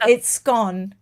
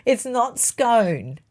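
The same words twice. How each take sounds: First: SCONE with a short o, like gone; short-vowel scone. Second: SCONE drawn out with a long o, like bone; long-vowel scone. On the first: Baker corrects co-host, "scone" with short o. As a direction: insist on "scone" rhyming with gone. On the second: Baker rejects the other way, slow "scone" with long o. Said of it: "It is definitely scone". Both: Shown as a demonstration.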